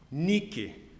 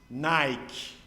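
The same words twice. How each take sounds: First: It is pronounced the Greek way. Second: It is pronounced the English way. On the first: The name of the Greek goddess of victory. "Eu vou falar uma palavra para vocês em grego" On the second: The name of the sports brand. "Então eu vou falar em inglês"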